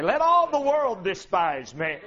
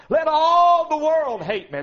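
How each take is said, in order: First: Lower, pulled back, with a lift on all; low resolved repeat; dropped echo. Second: Raised, louder and higher, leaning hard on all; defiant preaching cry; ringing declaration. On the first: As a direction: bring it down and inward. Echoing previous line. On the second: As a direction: proclaim it to the rafters. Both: Real, not acted.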